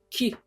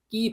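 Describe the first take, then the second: First: The k is aspirated with a puff of air. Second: The k is tense with no puff of air. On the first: The speaker calls it wrong. "키, 예, 아니고" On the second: The speaker calls it right. "끼 발음이다"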